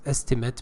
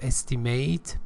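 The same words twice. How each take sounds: First: It is said with the noun pronunciation. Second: It is said with the verb pronunciation. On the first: The speaker calls it right. "but estimate because it's a noun" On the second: The speaker calls it wrong. "not estimate"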